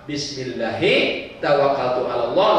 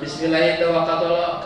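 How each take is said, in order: First: It is recited earnestly and with focus. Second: It is mumbled casually while attention is elsewhere. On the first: The person sincerely asks God for protection. The speaker calls it right. "Dibaca dengan serius" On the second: The person is busy looking for socks. The speaker calls it wrong. "Itu nggak serius"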